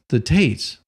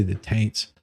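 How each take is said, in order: First: Said in the usual way. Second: "Taints", with an n slipped in before the t; Tates mispronounced as Taints. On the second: Shown as a demonstration. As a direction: say "Taints" with an added n sound. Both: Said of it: "just keep on wanting to say".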